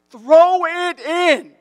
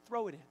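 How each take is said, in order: First: Drawn-out, high, full-volume yell. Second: Soft, casual retold coaching call; first, unraised call. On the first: Retold or imitated. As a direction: yell it slowly across a ball field. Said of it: "I'm yelling at him". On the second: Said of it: "now my voice is getting louder".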